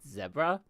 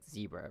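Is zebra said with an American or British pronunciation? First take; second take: British; American. First: It is said with a British pronunciation. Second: It is said with an American pronunciation. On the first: "in British it's like zebra" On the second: "in like American English it's like zebra"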